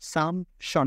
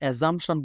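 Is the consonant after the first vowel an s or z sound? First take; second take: s; z. First: The consonant after the first vowel sounds like s. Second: The consonant after the first vowel sounds like z. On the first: The speaker calls it right. "এই যে স সাউন্ডটা পাচ্ছেন" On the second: The speaker calls it wrong. "তাহলে আমরা assumption বলার কোনো সুযোগ নাই"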